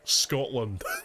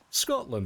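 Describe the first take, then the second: First: It is said in a thick Scottish accent. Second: It is said in a plain, neutral accent. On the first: "And then there's just you in the back" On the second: "And everyone just goes"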